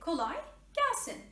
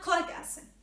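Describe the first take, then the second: First: It is said slowly, with the words divided. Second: It is said quickly, with the words run together. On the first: The speaker calls it right. "you don't need to say it faster. Divide it in a divided way" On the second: The speaker calls it wrong. "It doesn't need to be fast"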